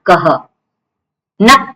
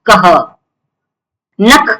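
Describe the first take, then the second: No difference in how they are said.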